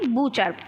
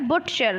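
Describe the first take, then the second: First: The t sound is left out. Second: The t sound is pronounced. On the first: This is how the word is read. "हम पढ़ते हैं बूचर" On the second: This is how the word is written. "हम लिखते क्या है"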